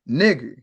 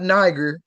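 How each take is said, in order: First: The first vowel sounds like 'ee'. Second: The first vowel sounds like 'eye'. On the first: The speaker calls it right. "just like how you have the word police ... It doesn't have uh, the, the hard I sound" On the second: The speaker calls it wrong. "It's not Niger, like how they try to lie and tell you"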